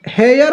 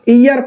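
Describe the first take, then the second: First: The word begins with an h sound. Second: The word begins with a vowel sound. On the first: The speaker calls it wrong. "हेयर लिखा हुआ है" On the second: The speaker calls it right. "ईयर पढ़ते हैं"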